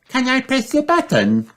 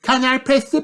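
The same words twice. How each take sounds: First: Put-on very high, eager child piglet; high-pitched eager request; excited Peppa. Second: Put-on very high child piglet asking; high-pitched eager child character; Peppa. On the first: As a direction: ask excitedly in a high little-pig voice. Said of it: "asks Peppa excitedly". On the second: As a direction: ask in a high little-pig voice. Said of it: "Peppa asks". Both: A narrator's reading.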